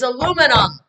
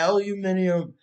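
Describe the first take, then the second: First: The word is said the American way. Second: The word is said the British way. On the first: The speaker calls it right. "It's aluminum" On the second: The speaker calls it wrong. "the chick was saying aluminum in a different way"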